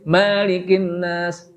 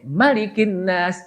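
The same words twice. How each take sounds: First: The first vowel of malikin is held long. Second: The first vowel of malikin is kept short. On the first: The speaker calls it wrong. "Enggak boleh panjang. Enggak boleh malikin nas" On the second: The speaker calls it right.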